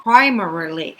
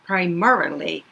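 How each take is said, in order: First: "primarily" with PRI punched loud; first-syllable stress. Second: "primarily" with MA punched, pri-MA-rily; second-syllable stress. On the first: Teacher showing one accepted reading, "primarily" stressed on PRI. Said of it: "해도 되고요". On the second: Teacher showing the other accepted reading, "primarily" stressed on MA. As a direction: move the weight onto MA in "primarily". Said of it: "이렇게 얘기해도 괜찮습니다". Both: Shown as a demonstration.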